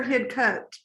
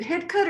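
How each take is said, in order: First: Hidcote said as HID-coat, long O; full-vowel pronunciation. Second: Hidcote said as HID-cut, short second vowel; reduced pronunciation. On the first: Asking the expert how to say it, Hidcote as HID-coat. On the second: Asking the expert how to say it, Hidcote as HID-cut. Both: Shown as a demonstration. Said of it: "Is it Hidcote or Hidcote?".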